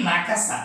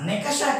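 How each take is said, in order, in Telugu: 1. మొదటి అక్షరం 'na' అని పలుకుతారు. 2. మొదటి అక్షరం 'ne' అని పలుకుతారు. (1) "నీలి నకస" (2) "నెకష కాదు"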